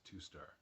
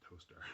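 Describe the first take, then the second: First: It sounds like two separate words, 'two star'. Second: It sounds like one word, 'toaster'. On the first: "The company's logo or motto is to be a star, so I think it's Two Star" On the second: "but you also say Toaster"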